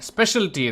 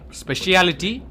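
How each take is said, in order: First: The word is said in its shorter form. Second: The word is said in its longer form. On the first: The speaker calls it right. "That's how even I would say it" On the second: The speaker calls it wrong. "That's how Indians would say that word"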